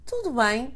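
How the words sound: It is said with an answering intonation. The speaker is replying that all is well. "with the intonation of an answer"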